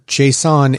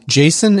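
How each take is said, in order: First: It sounds different from the name Jason. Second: It sounds exactly like the name Jason. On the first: It names a data format. The speaker calls it right. "JSON is a text document. There's no A in it" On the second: It names a person. The speaker calls it wrong. "Jason is a serial killer"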